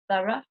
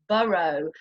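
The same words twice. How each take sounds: First: The word ends in a short uh sound. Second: The word ends in a long O sound. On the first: "these two words are pronounced with the uh sound" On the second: "in American English it's the long O sound"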